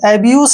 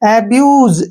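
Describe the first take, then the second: First: The word ends with an s sound. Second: The word ends with a z sound. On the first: The speaker calls it wrong. "एब्यूस नहीं है ये" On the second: The speaker calls it right. "एस ई का जो उच्चारण है जे के रूप में होगा"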